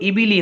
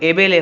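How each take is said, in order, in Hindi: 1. स्वर शुद्ध, बंद 'ee' ध्वनियाँ हैं। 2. स्वर खुले, 'ay' जैसी ध्वनियाँ हैं। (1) "अगर हम लोग मारूफ पढ़ेंगे" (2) "अगर मजहूल पढ़ देंगे"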